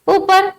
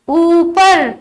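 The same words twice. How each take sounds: First: The first vowel is said lightly and briefly. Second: The first vowel is stressed and held longer. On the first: The speaker calls it wrong. "इस तरह नहीं बोलेंगे हम" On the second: The speaker calls it right. "थोड़ा सा जोर देकर बोलना होगा"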